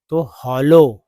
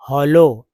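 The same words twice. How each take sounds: First: हॉलो said loud and clear as "ho-lo"; teaching pronunciation. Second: हॉलो repeated loud, "ho-lo"; teaching pronunciation. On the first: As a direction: model हॉलो loudly for students. (हॉलो को ज़ोर से साफ़ बोलना) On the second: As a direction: repeat हॉलो clearly for the class. (हॉलो दोहराकर साफ़ बोलना) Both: Shown as a demonstration. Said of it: "double एल को ला बोलेंगे".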